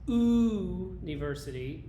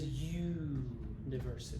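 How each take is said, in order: First: It starts with a bare vowel sound. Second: It starts with a y sound. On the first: The speaker calls it wrong. "if you pronounce this university, like some languages do ... that's not the English pronunciation" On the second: The speaker calls it right. "The English pronunciation is university"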